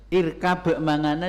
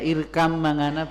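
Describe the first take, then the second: First: A separate b sound is heard before m. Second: The b merges into a doubled m sound.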